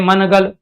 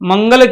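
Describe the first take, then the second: First: A clear n sound comes before the g. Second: A velar ng sound comes before the g. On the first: The speaker calls it wrong. "न तो यहां मनगल कह रहे हैं" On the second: The speaker calls it right. "मंगल कह रहे हैं तो गे का प्रयोग कर रहे हैं ना"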